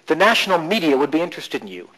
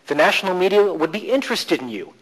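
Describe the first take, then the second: First: The stress is on media. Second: The stress is on interested.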